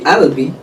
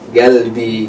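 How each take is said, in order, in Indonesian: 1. Bunyi pertama adalah hamzah, gaya Mesir. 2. Bunyi pertama adalah g keras, gaya Teluk. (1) "Kalau Mesir qaf jadi hamzah" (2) "negara-negara Teluk ... qaf jadi ga"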